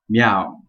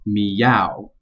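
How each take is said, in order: First: The word is said with one syllable. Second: The word is said with two syllables. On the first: The speaker calls it wrong. "even if you only read it with one syllable" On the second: The speaker calls it right. "two syllables on the last word"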